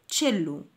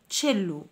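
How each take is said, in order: Both takes have the same delivery.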